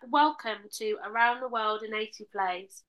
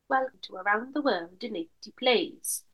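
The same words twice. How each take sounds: First: It is said in the speaker's ordinary accent. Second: It is said in a put-on Welsh accent.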